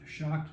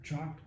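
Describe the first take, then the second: First: The name begins with a soft 'sh' sound. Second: The name begins with a hard 'ch' sound. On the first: The speaker calls it right. "pronounced shocked" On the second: The speaker calls it wrong. "not chalked"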